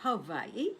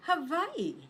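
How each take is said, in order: First: Said in the usual way. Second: "Hawaii" said the German way, high then falling; German pronunciation. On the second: Shown as a demonstration. Teacher has learners repeat, "Hawaii" in German pronunciation. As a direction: model "Hawaii" in German, higher, with a clear fall. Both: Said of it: "Just listen and repeat after me".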